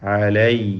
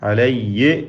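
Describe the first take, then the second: First: The ending glides off smoothly without any jolt. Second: The ending has an extra bouncing, echoing jolt. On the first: The speaker calls it right. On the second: The speaker calls it wrong.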